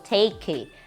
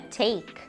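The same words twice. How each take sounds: First: The word ends with an added vowel after K. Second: The word ends on a light K sound. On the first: The speaker calls it wrong. "e não take, ok? Ou take. No" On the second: The speaker calls it right. "Com um K bem levinho no final"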